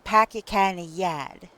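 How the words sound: It is spoken in a Boston accent. "with Boston, ... You have that eh sound"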